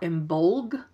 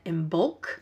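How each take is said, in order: First: The word ends with a g sound. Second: The word ends with a k sound. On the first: "with a G at the end" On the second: "with a C"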